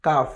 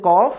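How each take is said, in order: First: কাফ with a light front k sound; light kaf. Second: কফ with a deep throat q sound; deep qaf. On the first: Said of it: "আরেকটি হচ্ছে". (কাফ হালকা সামনের উচ্চারণে) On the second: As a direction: say কফ from the back of the throat. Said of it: "কয়ের উচ্চারণ দুটি রয়েছে". (কফ গলার গভীর থেকে উচ্চারণ) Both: Shown as a demonstration.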